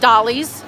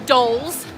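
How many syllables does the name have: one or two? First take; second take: two; one. First: The name is said as two syllables. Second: The name is said as one syllable. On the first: The speaker calls it right. "but it is pronounced Dolly's" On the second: The speaker calls it wrong. "it looks like it's Dole's"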